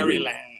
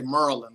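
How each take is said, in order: First: It is said the outsider way, fully spelled. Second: It is said the local way, like Merlin.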